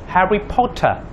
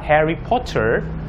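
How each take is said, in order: First: It is said in a British accent. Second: It is said in an American accent. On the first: "dalam versi British mereka akan memanggil Harry Potter" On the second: "Potter versi Amerika"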